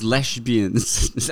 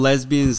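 First: The first s is said as sh. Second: The first s is said as a plain s.

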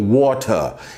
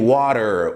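First: The middle t is a crisp t sound. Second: The middle t sounds like a quick r. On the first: "Os britânicos, eles falam água assim, ó. Water, eles pronunciam o T" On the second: "Já o americano é water, quer dizer, o T tem som de R"

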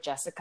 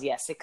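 First: The name begins with a hard J sound. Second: The name begins with a soft Y sound. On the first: This is not how the name was said in Norwegian. The speaker calls it wrong. "I was never Jessica" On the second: This is how the name was said in Norwegian. The speaker calls it right. "the letter J is a you know, Y sound"

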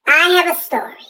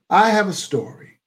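First: It is said in a put-on listener's voice. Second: It is said in his natural voice.

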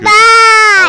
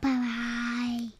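First: It is yelled loudly. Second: It is said softly.

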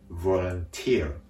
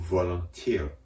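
First: The accent falls on the final syllable. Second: The accent falls on the final syllable.

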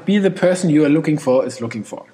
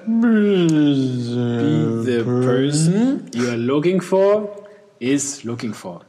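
First: It is read at a normal pace. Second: It is read at a slow pace.

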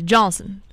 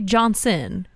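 First: The name is rolled together into one syllable. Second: The name is said as two separate syllables. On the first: The speaker calls it right. "you have to roll it all together" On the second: The speaker calls it wrong. "You don't say Johnson"

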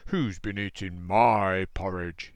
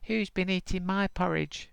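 First: It is said in a loud, roaring voice. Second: It is said in a high, squeaky voice.

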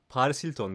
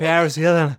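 First: The name is said with a Turkish accent. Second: The name is said with an English accent. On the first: This is how the speaker's own family said it. "Paris Hilton diyorduk biz" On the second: This is how the cousins abroad said it, showing off. "Öyle aksanda da tokatlı yani"

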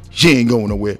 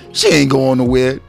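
First: It is said in the speaker's ordinary voice. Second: It is said in a put-on smooth voice.

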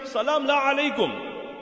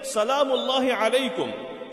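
First: The first word is clipped short. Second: The first word is said in full. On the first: No peace be upon you. The speaker calls it wrong. "she came and said" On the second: Peace of God be upon you. The speaker calls it right. "instead of saying"

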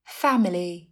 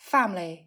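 First: The word is said with three syllables. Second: The word is said with two syllables. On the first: "3 âm tiết family" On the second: "Phát âm thành 2 âm tiết family"

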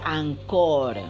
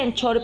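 First: It is said with English-like sounds. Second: It is said with plain Spanish sounds. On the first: This is how other creators say the app's name. "pero se pronuncia Anchor, que es lo que yo le he escuchado a otros, youtubers" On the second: This is how the milk brand is said. "Se escribe Anchor, así como la leche"

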